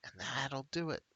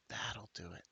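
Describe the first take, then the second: First: Said in the usual way. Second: Breathy conspiratorial whisper. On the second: Acted. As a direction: whisper it like a secret tip. Informant repeats it, whispered.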